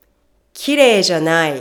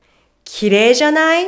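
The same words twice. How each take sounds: First: 綺麗じゃない? said as a statement, dropping at the end; no rise on 綺麗じゃない?, let it fall. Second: 綺麗じゃない? quick, climbing high to the end; questioning upswing through 綺麗じゃない?; rising tone. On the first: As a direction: negate with a falling 綺麗じゃない?. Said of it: "If you don't raise your tone". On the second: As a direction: ask for agreement with a rising 綺麗じゃない?. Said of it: "Let's listen and compare". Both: Shown as a demonstration.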